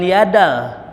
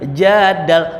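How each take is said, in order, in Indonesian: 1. Kata itu dimulai dengan bunyi y. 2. Kata itu dimulai dengan bunyi j. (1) "bukan yadal" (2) "jadal bukan yadal"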